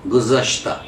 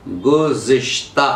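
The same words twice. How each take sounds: First: गुज़श्ता as guzashta, no i after z; correct pronunciation. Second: गुज़िश्ता with an i after z, said slowly; wrong pronunciation. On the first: Teacher gives the correct form गुज़श्ता. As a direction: say गुज़श्ता cleanly: guz-ash-ta. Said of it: "सही तलफ़ुज़ है". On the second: Teacher slowly shows the wrong form गुज़िश्ता. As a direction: stretch out गुज़िश्ता, guzishta, the wrong way. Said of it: "तो तलफ़ुज़ गलत हो गया". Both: Shown as a demonstration.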